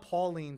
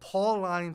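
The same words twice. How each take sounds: First: It is said like a woman's first name. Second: It is not said like a woman's name. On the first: The speaker calls it wrong. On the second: The speaker calls it right.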